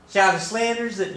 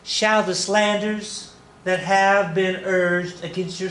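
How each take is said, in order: First: High, badly faked Texas accent; second stab at a Texan lady, pitched way up; hammed-up Texas accent that doesn't quite land; attempted Texas accent. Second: High, slow attempt at a Texas accent; badly faked Texas lady, drawn out high; failed Texas accent. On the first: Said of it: "I can't do Texas". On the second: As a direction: try a Texas accent and miss, stretching it slowly. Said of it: "that's not Texas accent".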